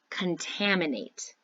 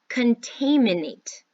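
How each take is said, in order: First: The vowel sounds are normal. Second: The vowel sounds are distorted. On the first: The speaker calls it right. "you say it correctly" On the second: The speaker calls it wrong. "I say a word incorrectly because I'm messing up the sounds"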